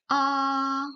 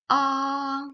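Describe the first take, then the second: First: The pitch stays high and level. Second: The same.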